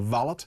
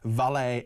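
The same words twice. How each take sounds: First: The final t is clearly pronounced. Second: The final t is silent, ending in ay. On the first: This is the British way of saying it. "valet is pronounced as it's spelt" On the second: This is the American way of saying it. "Valet is American"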